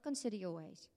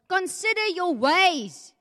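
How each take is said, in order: First: The phrase is said flatly, without exclamation. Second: The phrase is said forcefully, like an exclamation. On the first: It is a mild suggestion. The speaker calls it wrong. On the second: It is an urgent command. The speaker calls it right. "Exclamation mark"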